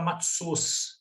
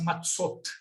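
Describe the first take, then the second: First: The word ends in an s sound. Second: The word ends in a t sound. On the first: This is how a Yiddish speaker says it. "Ele vai falar com S no final" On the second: This is the modern Hebrew pronunciation. "no hebraico moderno fala assim"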